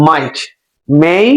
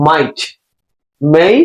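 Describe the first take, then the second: No difference in how they are said.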